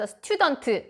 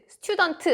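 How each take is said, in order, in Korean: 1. t 뒤에 모음을 붙여서 끝나요. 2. t 소리로 깔끔하게 끝나요. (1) "우리나라 사람들이 이제 트, 으 발음을 하길 좋아해서 student, student 하시는데 으 사운드를 내시면 절대 안 되고요" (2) "student까지로 끝내주시는 게 가장 좋습니다"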